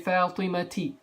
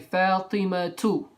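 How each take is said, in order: First: The name ends with an i vowel. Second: The name ends without an i vowel. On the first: The speaker calls it wrong. "You never say" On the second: The speaker calls it right. "So you say"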